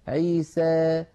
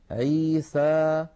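First: The final vowel leans slightly toward 'ee'. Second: The final vowel is a plain open 'a'. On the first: "يخلطون هذا الصوت بشيء من الياء" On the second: "بفتح الفم فتحا وسطا، هكذا اسمعوني جيدا"

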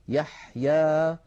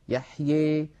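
First: The final vowel is a plain, open a. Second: The final vowel leans strongly toward ee. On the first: "يخرج بفتح الفم فتحا وسطا" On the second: "يخلط صوت الألف بصوت الياء أكثر من هذا"

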